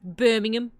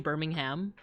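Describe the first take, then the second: First: The H sound in the word is silent. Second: The H sound in the word is pronounced. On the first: "instead of" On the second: "like with the H"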